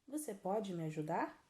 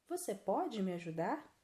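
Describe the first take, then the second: No difference in how they are said.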